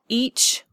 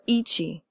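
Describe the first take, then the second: First: The word ends in a ch sound. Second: The word ends in ch plus an ee vowel. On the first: "not each" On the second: "or eachy"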